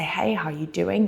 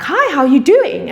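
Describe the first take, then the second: First: Softer, gentle hello matching low energy; low-key greeting. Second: High, loud and upbeat hello; bright greeting. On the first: Shown as a demonstration. Teacher greeting a tired client, soft and gentle. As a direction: meet them where they are, quietly. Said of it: "meet them where they are". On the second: Retold or imitated. Calling a family member, a bright high greeting. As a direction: greet them full of energy.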